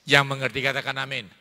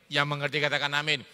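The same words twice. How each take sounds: First: Call for amen. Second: Quicker repeat. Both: Real, not acted.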